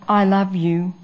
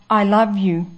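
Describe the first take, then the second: The two takes are said the same way.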